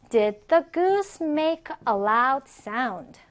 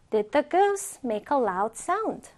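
First: Very slow, word-by-word question; deliberate, carefully spaced words; slow model reading. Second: Said in the usual way. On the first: Shown as a demonstration. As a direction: model the question slowly for learners. Teacher's first, slower model question.

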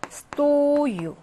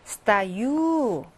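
First: Стою as STO-yu, long high О; Стою with a drawn-out, stressed first syllable. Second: Стою as sta-YU, long final vowel; Стою with the weight on the last syllable; stress on the ending. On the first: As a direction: hold and punch the О in Стою. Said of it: "강세가 다릅니다". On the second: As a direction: reduce О to A and stretch Ю in Стою. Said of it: "서 있다는 강세가 어미에 있어요". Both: Shown as a demonstration.

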